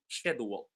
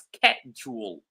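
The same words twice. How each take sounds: First: The word begins with a sh sound. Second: The word begins with a k sound. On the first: "in the United Kingdom, it's pronounced schedule" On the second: "like with the K instead of sh sound"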